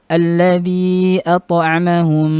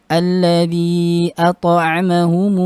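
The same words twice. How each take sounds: No difference in how they are said.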